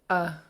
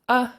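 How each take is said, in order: First: The vowel is said on a low tone. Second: The vowel is said on a high tone.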